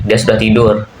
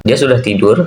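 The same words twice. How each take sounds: First: "Dia sudah tidur" in a level tune, not rising at the end; teacher demonstrating the statement reading of "Dia sudah tidur"; flat statement intonation. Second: "Dia sudah tidur" with the pitch rising at the end, as a question; teacher demonstrating the question reading of "Dia sudah tidur"; question intonation. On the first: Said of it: "kalau intonasi datar". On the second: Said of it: "tanda tanya di belakangnya". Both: Shown as a demonstration.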